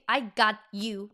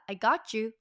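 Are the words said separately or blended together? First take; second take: separate; blended. First: Each word is said separately and fully. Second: The words are blended together into one unit. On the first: The speaker calls it wrong. "No, you don't say that" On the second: The speaker calls it right. "So you assimilate that pronunciation like that too"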